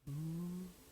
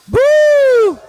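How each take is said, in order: First: It is said softly and quietly. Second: It is said at a high pitch.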